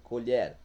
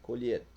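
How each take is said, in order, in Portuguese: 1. A vogal tônica é pronunciada aberta. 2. A vogal tônica é pronunciada fechada. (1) "pronúncia aberta" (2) "pronúncia fechada"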